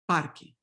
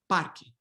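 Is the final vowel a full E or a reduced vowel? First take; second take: reduced; reduced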